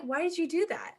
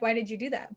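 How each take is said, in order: First: Higher-pitched puzzled question; genuinely confused. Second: A puzzled question that could pass for annoyed; accidentally angry-sounding. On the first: Confused roommate asking why, higher and puzzled. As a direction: ask it in baffled innocence. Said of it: "I'm just so confused". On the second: Roommate asking about little things, blunt but not angry. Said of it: "I look angry, but I'm fully not". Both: Retold or imitated.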